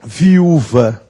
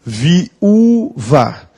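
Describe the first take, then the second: First: Said in the usual way. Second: "viúva" broken slowly into vi-Ú-va; syllable by syllable. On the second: Shown as a demonstration. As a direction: draw out the stressed ú in "viúva", pausing between syllables. ("viúva" escandido, com o ú tônico alongado) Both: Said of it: "Se eu digo".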